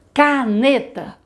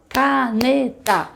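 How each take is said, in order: First: Caneta said slowly, syllable by syllable. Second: Caneta stretched very slowly with claps; clapped syllables. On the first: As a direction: clap out Caneta in three beats. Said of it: "quantas vezes a gente abre a boca". (Caneta bem devagar, batendo as sílabas) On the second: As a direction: clap out each syllable of Caneta. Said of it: "A gente vai na palma". (Caneta na palma, sílaba por sílaba) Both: Shown as a demonstration.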